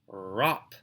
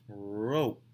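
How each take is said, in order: First: The vowel is a short o sound. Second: The vowel is a long o sound. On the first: The speaker calls it wrong. "that's not a rop" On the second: The speaker calls it right. "We need to say O"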